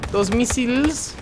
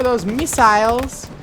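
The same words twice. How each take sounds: First: "missiles" ending like "seals"; altered missiles. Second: "missiles" ending like "miles"; usual missiles. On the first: Streamer playfully repeats the warning, "missiles" as "miss-eels". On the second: Streamer warns the Germans, "missiles" ending like "miles". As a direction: say "missiles" with a long i in the second syllable. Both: Pretend.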